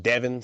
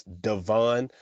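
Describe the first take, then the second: First: "Devon" said as DEV-in; as-spelled pronunciation. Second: "Devon" said as duh-VON; name pronunciation. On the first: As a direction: stress the first syllable of "Devon". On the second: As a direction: stress the second syllable of "Devon". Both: Shown as a demonstration. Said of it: "but it's spelled Devon".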